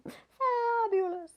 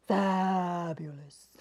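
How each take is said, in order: First: "Fabulous" sung high and slow; a high, drawn-out "Fabulous". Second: "Fabulous" said low and slow. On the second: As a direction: drop "Fabulous" low and draw it out. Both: Shown as a demonstration. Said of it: "Can you say fabulous?".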